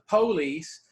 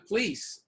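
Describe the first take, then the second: First: The stress is on the first syllable. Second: The stress is on the last syllable. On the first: "some might go expect, uh, you know, stress the police" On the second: "most of us say the police"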